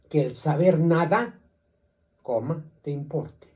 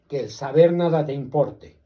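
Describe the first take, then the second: First: There is a pause after nada before te importe. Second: It runs straight through with no pause after nada. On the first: Even with luck, pursue knowledge. The speaker calls it right. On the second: With luck, knowledge does not matter. The speaker calls it wrong.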